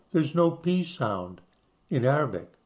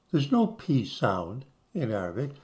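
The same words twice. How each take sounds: The two takes are said the same way.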